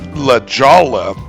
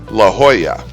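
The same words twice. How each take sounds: First: Jolla begins with a J sound and has L. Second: Jolla begins with an H sound and has Y. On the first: The speaker calls it wrong. "So it's not La Jolla" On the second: The speaker calls it right. "The J makes the H sound, and the double L's make the Y sound"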